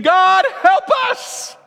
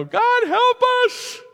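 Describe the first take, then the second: First: High, loud, slow scream of God, help us. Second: High, slow, hammed-up cry of God, help us; half-joking plea on a plane; mock plea to God. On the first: Retold or imitated. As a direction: cry God, help us in full panic. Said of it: "stand up and scream". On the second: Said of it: "do not stand up and go".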